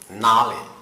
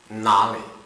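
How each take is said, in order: Both takes have the same delivery.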